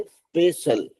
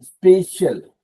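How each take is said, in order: First: स्पेशल as es-pe-si-al with an s sound; स्पेशल, the mistaken spelled-out form; wrong special. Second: स्पेशल with a sh sound, two syllables; स्पेशल, firm and clear with sh in the middle; correct special. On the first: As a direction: say स्पेशल with an extra i, spe-see-al. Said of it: "सीएल नहीं बोलेंगे". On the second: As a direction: say स्पेशल as spe-shal, no i. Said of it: "ऐसा pronounce करने को आएगा". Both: Shown as a demonstration.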